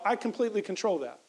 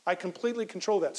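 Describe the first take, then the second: First: I pushed up front, then falls away; emphasis on "I" as the one in control; stress on I. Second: "control" is the peak, the rest falls; emphasis landing on "control"; stress on control. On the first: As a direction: lean on the word I, not control. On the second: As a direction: hit the word control. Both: Shown as a demonstration. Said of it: "if I focus on relating with Michelle".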